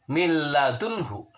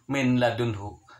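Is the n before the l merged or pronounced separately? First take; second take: merged; pronounced. First: The n merges into a doubled l sound. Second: The n sound is pronounced separately before l. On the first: The speaker calls it right. "Dibacanya adalah min ladunhu" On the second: The speaker calls it wrong. "tidak boleh dibacanya min ladunhu"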